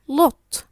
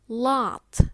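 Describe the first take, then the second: First: British "lot" with a short rounded o, higher and much louder; British accent. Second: American "lot" with an open "ah" vowel, loud; American accent. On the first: Teacher contrasting a tricky word, British accent. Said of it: "In British, it's pronounced". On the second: Teacher contrasting a tricky word, American accent. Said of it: "In American, it's pronounced". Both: Shown as a demonstration.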